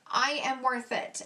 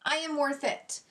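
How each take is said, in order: First: Slow, deliberate reading; slow repeat. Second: Said in the usual way. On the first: Real, not acted. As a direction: spell it out word by word. Repeats shade name more slowly.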